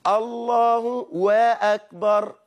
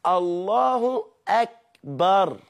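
First: الله وأكبر slow and high, with a separate "we" before akbar; inserted waw. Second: الله أكبر slow and high, "Allahu, ak-bar" with a clean hamza; no waw. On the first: Teacher mimicking another person's mistake, extra waw inserted. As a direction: split it as "Allahu... we-akbar". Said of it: "يجيب لك واو ما بين الله وكلمة أكبر". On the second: Teacher correcting the extra waw, carefully separated. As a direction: separate الله from أكبر, short last vowel. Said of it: "لا، هي مش واو ولا حاجة". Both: Shown as a demonstration.

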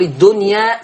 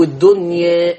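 First: الدنيا ending in a full open a; فتح زي حفص. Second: الدنيا with the final a tilted toward e; تقليل. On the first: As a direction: open the last vowel of الدنيا, no tilt. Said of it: "فتح زي حفص". (الدنيا بفتح الألف الأخيرة) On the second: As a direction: lean the last vowel of الدنيا toward e. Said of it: "أميل بالألف شوية". (الدنيا بإمالة الألف شوية) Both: Shown as a demonstration.

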